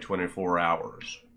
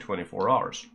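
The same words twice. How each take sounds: First: Hours is said in a standard accent. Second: Hours is said in a regional local accent. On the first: "We wouldn't say" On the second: "We'd say"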